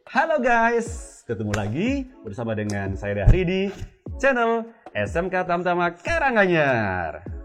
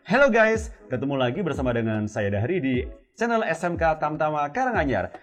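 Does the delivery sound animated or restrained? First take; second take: animated; restrained. First: The delivery is lively with freely varying pitch. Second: The delivery is held back with less pitch variation. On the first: The speaker calls it right. "Itu kan ngebantu gitu loh" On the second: The speaker calls it wrong. "bisa aja main intonasinya, cuma nggak nggak nggak kerasa lepas"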